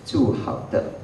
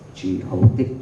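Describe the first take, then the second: First: The phrase is pronounced with Mandarin sounds. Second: The phrase is pronounced with Cantonese sounds. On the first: It no longer sounds like G O D. "So when you read that in Mandarin" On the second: It sounds like the English letters G O D. "if you read the Chinese character in Cantonese"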